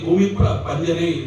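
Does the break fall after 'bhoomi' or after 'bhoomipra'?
after bhoomipra. The break falls after 'bhoomipra'. The speaker calls it wrong.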